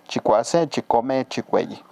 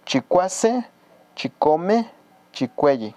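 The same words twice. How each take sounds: First: Said in the usual way. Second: Chicuase, chicome with the final syllable drawn out and raised; stress on last syllable. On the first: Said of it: "es un tono simple". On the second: Shown as a demonstration. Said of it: "yo le doy la acentuación más en la última".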